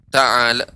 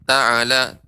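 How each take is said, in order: Both takes have the same delivery.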